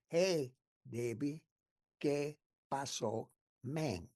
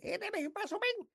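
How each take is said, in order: First: It is said slowly. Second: It is said fast.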